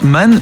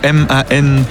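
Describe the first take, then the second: First: The name is said as a single word. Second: The name is spelled out as three letters. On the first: "Est-ce que ça se prononce Man ou M-A-N?" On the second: "ou M-A-N?"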